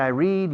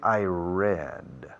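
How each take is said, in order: First: Read is said with a long ee vowel. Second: Read is said with a short e vowel. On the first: It happens regularly now. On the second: It happened in the past.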